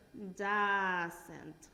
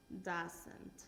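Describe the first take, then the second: First: Doesn't said slowly and firmly, at full voice; clear model word. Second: Doesn't repeated much softer, almost to self. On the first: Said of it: "¿qué pongo?". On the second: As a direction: echo the word Doesn't quietly after the model. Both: Shown as a demonstration.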